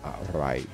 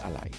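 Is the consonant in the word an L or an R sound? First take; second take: R; L. First: The word is said with an R sound. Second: The word is said with an L sound. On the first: "Have a little the R sound at the end" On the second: "with an L"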